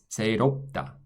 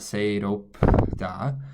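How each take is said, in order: First: The b before da is barely heard. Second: The b before da is audibly released. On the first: The speaker calls it right. "you don't even really hear that this B sound exists" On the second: The speaker calls it wrong. "It's not seiro-da"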